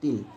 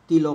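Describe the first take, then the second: First: The word ends on the bare l consonant. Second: The word ends with an added o vowel. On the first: The speaker calls it right. "কিন্তু তিল" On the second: The speaker calls it wrong. "তিল হই না"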